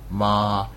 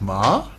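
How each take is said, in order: First: The pitch stays level and flat. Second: The pitch sounds like a surprised question. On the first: "very flat, that's one tone" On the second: "like a surprise"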